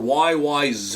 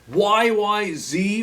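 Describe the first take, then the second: First: The last letter is pronounced zed. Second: The last letter is pronounced zee.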